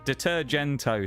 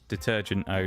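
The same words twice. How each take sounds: First: It sounds like a Mediterranean place name. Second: It sounds like English 'detergent' with O added. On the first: The speaker calls it right. "sounds more like a town in sort of the Med somewhere" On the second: The speaker calls it wrong. "the word detergent, but with the O at the end. Detergent-O doesn't sound right"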